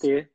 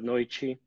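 First: The t is a hard t sound. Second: The t sounds like ch.

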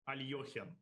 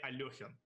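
The two takes are said the same way.

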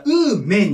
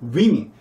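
First: The word is pronounced like 'woo-men'. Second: The word is pronounced like 'wi-min'. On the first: The speaker calls it wrong. "ウーマンだから、ウーメンになりそうなんですけど" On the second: The speaker calls it right. "ウィミンと言います、発音。"

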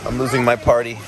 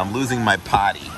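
First: It is said in a standard accent, with the r. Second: It is said in a Boston accent, without the r. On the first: The speaker calls it right. "I'll say it correctly" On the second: The speaker calls it wrong. "I said it like I was from Boston"

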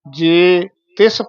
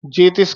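First: A slight break separates the two words. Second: The two words are run together as one. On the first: The speaker calls it right. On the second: The speaker calls it wrong.

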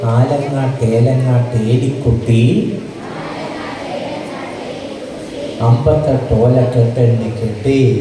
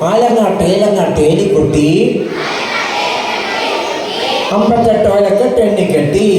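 First: It is said slowly and softly. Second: It is said quickly and loudly. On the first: The children are walking slowly with time to spare. "പതുക്കെ പറഞ്ഞാവട്ടെ" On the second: The children are hurrying because the bell has rung. "ഉറക്കെ അതിവേഗം ഈ കവിത ചൊല്ലുന്നു"

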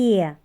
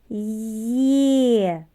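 First: The sound is said at a normal pace. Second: The sound is said slowly and drawn out. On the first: "Давайте її разом вимовимо" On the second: "А тепер повільно"

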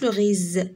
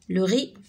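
First: The word ends with a z sound. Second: The word ends with no z sound. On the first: The speaker calls it wrong. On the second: The speaker calls it right.

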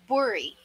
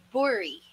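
First: The first vowel sounds like 'oh', as in 'bori'. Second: The same.

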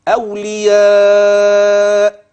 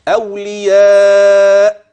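First: The long vowel is held for six counts. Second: The long vowel is held for four counts. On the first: "ست حركات" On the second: "هذه أربع"

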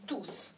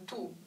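First: The final s is pronounced. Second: The final s is silent. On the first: The word is used as a pronoun. "这个s 要发音tous" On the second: The word is used as an adjective. "这个do s 不发音"

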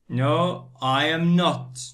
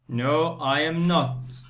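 No difference in how they are said.

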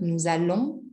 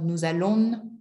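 First: The final letters of allons are silent. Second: The final letters of allons are pronounced. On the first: The speaker calls it right. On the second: The speaker calls it wrong.

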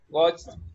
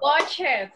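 First: The ending is said as a short t sound. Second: The ending is said as an extra syllable. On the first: The speaker calls it right. "con la T" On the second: The speaker calls it wrong. "Eso no se dice watch it"

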